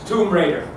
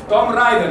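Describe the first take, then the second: First: It is said with an English pronunciation. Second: It is said with a Spanish-style pronunciation. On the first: The speaker calls it right. "No, es Tomb Raider" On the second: The speaker calls it wrong. "Todo España lo pronuncia así, no sé por qué"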